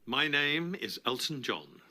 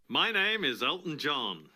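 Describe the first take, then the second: First: It is said in a plain, understated way. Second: It is said in a showy, theatrical way. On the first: "Little less showbiz" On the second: "Bit more showbiz"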